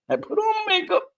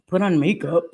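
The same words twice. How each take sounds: First: Much higher, with a giggle; squeaky laughing repeat. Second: Said in the usual way. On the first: Real, not acted. Proudly repeating to her viewers that she wore makeup, in a high laughing squeak. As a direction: say it again in a tiny giggly squeak.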